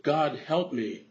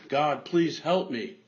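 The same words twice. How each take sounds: First: A mild cry for help, only a little raised. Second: Mock scream. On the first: Acted. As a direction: call out to God in mild desperation. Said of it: "Bill cried out". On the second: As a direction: beg God harder, stretching it out. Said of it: "He screamed again".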